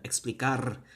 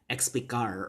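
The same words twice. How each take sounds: First: The R is trilled with a rolling tongue. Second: The R is curled like an American R. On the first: The speaker calls it right. "We want that R, that trilled R" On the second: The speaker calls it wrong. "don't curl that R"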